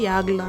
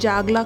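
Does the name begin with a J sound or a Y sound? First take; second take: Y sound; J sound. First: The name begins with a Y sound. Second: The name begins with a J sound. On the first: The speaker calls it right. "యాగ్లా అని ప్రొనౌన్స్ చేస్తారనమాట" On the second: The speaker calls it wrong. "జాగ్లా కాకుండా"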